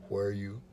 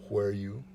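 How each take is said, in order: The two takes are said the same way.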